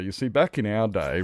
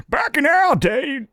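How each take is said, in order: First: Said in the usual way. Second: Put-on much higher, louder and slow old man with an odd accent; old guy with an accent. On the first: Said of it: "where that accent came from". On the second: Old man lecturing Nevada on the good old days, put-on accent. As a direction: croak it out like a grumpy old timer. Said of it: "the old guy had an accent too".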